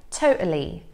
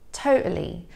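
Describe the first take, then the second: First: The middle T is a glottal stop. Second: The same.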